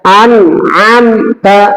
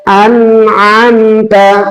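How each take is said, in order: First: The word is broken apart with a break inside. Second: The word flows smoothly without any break inside. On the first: The speaker calls it wrong. "jangan terputus begitu" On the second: The speaker calls it right. "tapi biasa saja ya, mengalir"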